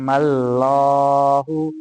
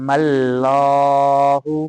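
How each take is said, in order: The two takes are said the same way.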